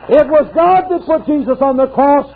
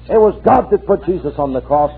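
First: High, full-voiced declaration; fervent preacher proclaiming the cross; preached cry. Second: Said in the usual way. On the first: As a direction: proclaim it to the rafters. Preached, then restated plainly at 128.

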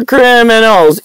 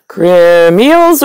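First: Said in the usual way. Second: "Criminals" squeezed into crim-eels; alternate pronunciation. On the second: Shown as a demonstration. Trying out a name for important people, alternate pronunciation. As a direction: say "Criminals" as crim-eels, middle syllable swallowed. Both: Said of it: "Criminals or criminals?".

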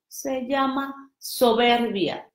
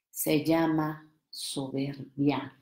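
First: Said in the usual way. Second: Slow hushed whisper, said in confidence. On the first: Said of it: "repeated aloud". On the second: Shown as a demonstration. Whispering a secret to the audience, hushed. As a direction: lean in and breathe it. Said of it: "¿Me acerco?".

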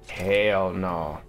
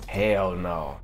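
Both takes have the same delivery.

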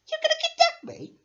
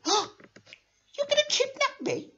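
First: Much higher and louder panicked question; terrified squeal. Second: High, slow gasping disbelief; shocked gasp. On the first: Captive toy repeating the threat, panicked squeal. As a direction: shriek it in alarm. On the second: Captive toy hearing the kidnap plan, shocked. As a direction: gasp it out, horrified. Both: Acted.

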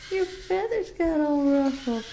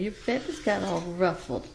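First: Higher cooing repeat to the bird; high pet talk. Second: Said in the usual way. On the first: Real, not acted. Owner teasing Beauty about ruffled feathers, high pet talk.

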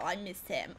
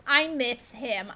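First: Said in the usual way. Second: Put-on slow, drawn-out Boston accent. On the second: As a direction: lean hard on a put-on Boston accent, stretching each word. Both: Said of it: "gonna talk like that".

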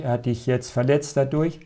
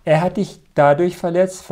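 First: Said in the usual way. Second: Louder, with "dadurch" hit firmly; a firmer take that leans on "dadurch"; emphatic restatement. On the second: Shown as a demonstration. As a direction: land hard on "dadurch" to correct the point.

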